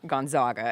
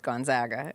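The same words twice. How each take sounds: First: The middle syllable sounds like 'zog'. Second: The middle syllable sounds like 'zag'. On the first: The speaker calls it wrong. "and not Gonzaga" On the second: The speaker calls it right. "say it correctly, which is Gonzaga"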